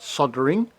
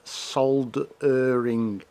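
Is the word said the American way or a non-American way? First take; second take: American; non-American. First: It is said with an American pronunciation. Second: It is said with a non-American pronunciation. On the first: The speaker calls it wrong. "not soldering, like the Americans like to call it" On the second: The speaker calls it right. "It's soldering, S O L D E R I N G"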